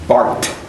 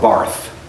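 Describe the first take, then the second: First: The name ends with a plain 't' sound. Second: The name ends with a 'th' sound. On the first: The speaker calls it right. "It's Bart" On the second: The speaker calls it wrong. "if you don't say Karl Barth"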